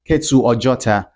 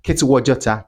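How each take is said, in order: First: The two words are said separately. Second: The two words are joined by a w sound. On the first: "they often say" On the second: "if they want to say naturally, it's going to sound like"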